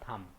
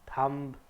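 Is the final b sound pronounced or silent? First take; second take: silent; pronounced. First: The final b is silent. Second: The final b is pronounced. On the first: The speaker calls it right. "हमारा exact pronunciation क्या होगा" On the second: The speaker calls it wrong. "थम्ब नहीं होगा, तो ब की sound नहीं आनी चाहिए"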